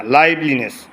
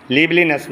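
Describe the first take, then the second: First: লাইভলিনেস opening on "laib"; correct pronunciation. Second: লিভলিনেস opening on "liv"; wrong pronunciation. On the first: Teacher models the word for students, correct pronunciation. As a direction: say লাইভলিনেস with a long "ai". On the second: Teacher shows students what to avoid, wrong pronunciation. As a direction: say লিভলিনেস with a short I. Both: Shown as a demonstration. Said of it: "লিভলিনেস না".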